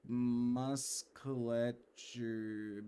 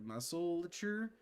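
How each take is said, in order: First: Musculature stumbled out slowly as mas-ke-lesh-er; misread word. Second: Musculature said as mus-cu-la-ture, checking it; corrected word. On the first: Streamer fumbling the word musculature while reading. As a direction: drag musculature out, trying the sounds. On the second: Streamer correcting the word musculature, unsure. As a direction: say musculature carefully, with a rising doubt. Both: Shown as a demonstration.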